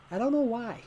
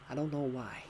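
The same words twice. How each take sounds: First: Much higher, a silly squeaky voice; squeaky mock voice. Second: Said in the usual way. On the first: Streamer jokes to chat in a high silly voice. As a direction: pitch it way up for a joke. Repeats line, second time high.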